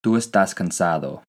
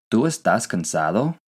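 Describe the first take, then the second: First: Tú estás cansado with a falling tune at the end; falling statement. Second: ¿Tú estás cansado? with the pitch rising at the end; rising question; question tune. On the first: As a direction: state it, letting cansado drop. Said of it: "as a statement". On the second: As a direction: ask it, lifting the voice on cansado. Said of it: "If you wanted to ask someone". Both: Shown as a demonstration.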